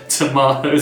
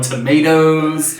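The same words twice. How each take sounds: First: It is said in a British accent. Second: It is said in an American accent. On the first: This is how the speaker used to say it. "we're no longer on t tomatoes" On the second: This is how the speaker says it now. "we're on tomatoes"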